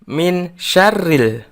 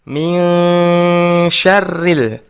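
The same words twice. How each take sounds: First: The n is pronounced clearly before the sh. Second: The n is hidden and nasalized into the sh. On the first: The speaker calls it wrong. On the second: The speaker calls it right. "kita samarkan dan dengungkan huruf nunnya"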